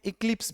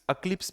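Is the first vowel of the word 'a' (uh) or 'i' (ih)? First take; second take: i (ih); a (uh). First: The word begins with an 'ih' vowel. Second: The word begins with an 'uh' vowel. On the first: "इक्लिप्स भी बोलते हैं" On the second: "अक्लिप्स भी बोलते हैं"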